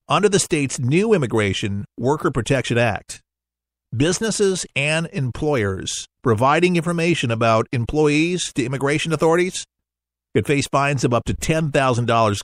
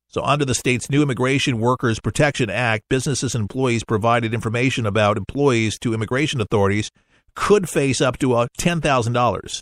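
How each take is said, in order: First: It is read slowly. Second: It is read at normal speed.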